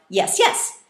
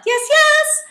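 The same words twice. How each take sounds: First: "yes, yes" as two quick beats; quick double reply. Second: Very high, loud double reply; high-pitched. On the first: Students replying to the teacher, "yes, yes" quick and doubled. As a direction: answer "yes, yes" promptly, the second stronger. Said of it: "immediately reply". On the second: Students echoing the teacher's high call, high-pitched. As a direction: squeal both words at the top. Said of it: "in a high-pitched voice". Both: Shown as a demonstration.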